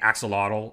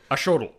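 First: The x is pronounced as a k sound. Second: The x is pronounced as a sh sound. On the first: This is how English speakers adapted the word. The speaker calls it wrong. "had to make a K sound" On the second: This follows the word's original language. The speaker calls it right. "the X, I think, is a sh sound"

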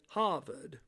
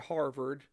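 First: It is said in a New England accent. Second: It is said in a standard accent.

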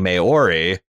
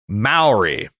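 First: The first syllable does not sound like 'Mao'. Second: The first syllable sounds like 'Mao', rhyming with cow. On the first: The speaker calls it wrong. "What I've been saying" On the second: The speaker calls it right. "Mao is in Chairman Mao"

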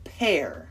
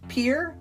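First: The vowel sounds like the word 'air'. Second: The vowel sounds like the word 'ear'. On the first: The speaker calls it right. "but it's pronounced pear" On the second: The speaker calls it wrong. "it looks like pear"

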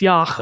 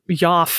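First: The word ends with a throaty ch sound. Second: The word ends with an f sound. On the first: The speaker calls it right. "but it's yach, I think" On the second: The speaker calls it wrong. "or yaf, maybe"

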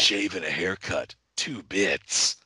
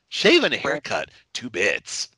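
First: The put-on voice is pitched lower. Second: The put-on voice is pitched higher. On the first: The speaker calls it wrong. "our impression of the Crow sounds nothing like the Crow" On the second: The speaker calls it right. "It'd be more up there like that"

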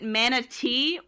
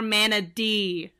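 First: The middle consonant sounds like a clear T. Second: The middle consonant sounds like a soft D. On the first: "Like with a T" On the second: "or the D"

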